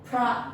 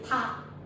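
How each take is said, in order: First: The word is said with an R after P. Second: The word is said without any R sound. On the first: "And pra" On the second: "Some people they say pa"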